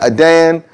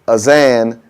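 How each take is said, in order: First: The middle consonant is a hard d sound. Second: The middle consonant is a buzzing z sound. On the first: It means to condemn something. "Adan is wrong" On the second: It means to decorate. "Azan is wrong"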